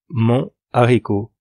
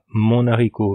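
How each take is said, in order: First: Mon stays separate from haricot, no linking n. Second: An n sound links mon into haricot. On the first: The speaker calls it right. "pas de liaison" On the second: The speaker calls it wrong.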